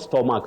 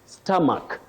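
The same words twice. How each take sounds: First: The first vowel is not the 'uh' sound. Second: The first vowel is the central 'uh' sound. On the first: The speaker calls it wrong. "not stomach that we say" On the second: The speaker calls it right. "just like in the word stomach"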